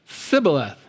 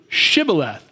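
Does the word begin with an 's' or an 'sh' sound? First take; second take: s; sh. First: The word begins with an 's' sound. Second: The word begins with an 'sh' sound. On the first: The speaker is an Ephraimite. The speaker calls it wrong. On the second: The speaker is not an Ephraimite. The speaker calls it right.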